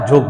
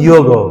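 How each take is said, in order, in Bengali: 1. শব্দটি বাংলা উচ্চারণে বলা হয়েছে। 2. শব্দটি সংস্কৃত উচ্চারণে বলা হয়েছে। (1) "বাংলায় আমরা যোগ বলতে পারি" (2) "সংস্কৃত উচ্চারণটা কিন্তু"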